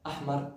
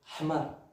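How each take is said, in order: First: It is pronounced in Standard Arabic style. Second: It is pronounced in Moroccan dialect style.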